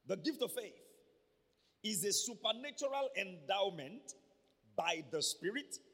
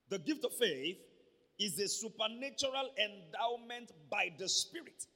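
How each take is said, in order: First: The sentence is spoken at a slower pace. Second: The sentence is spoken at a fast pace. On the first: The speaker calls it right. "I'll take it again" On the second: The speaker calls it wrong. "I'm very fast"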